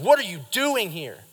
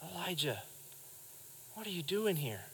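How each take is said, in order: First: It is said harshly, like an accusation. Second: It is said gently, like a caring question.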